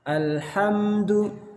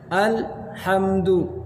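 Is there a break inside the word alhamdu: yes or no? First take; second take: no; yes. First: The word is said without any break. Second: There is a short break after the lam. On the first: The speaker calls it right. "seperti itu" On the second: The speaker calls it wrong. "Ini ada jeda atau adanya saktah"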